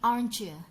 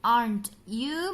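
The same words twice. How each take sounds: First: The t and y merge into a ch sound. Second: The t and y sounds stay separate.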